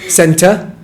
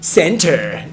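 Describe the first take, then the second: First: It is said with a British accent. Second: It is said with an American accent. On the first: The speaker calls it right. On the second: The speaker calls it wrong.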